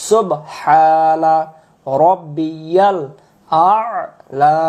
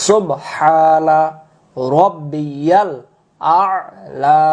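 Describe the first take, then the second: No difference in how they are said.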